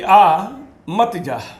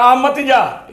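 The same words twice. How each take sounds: First: There is a pause right after 'aa'. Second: There is a pause right after 'mat'.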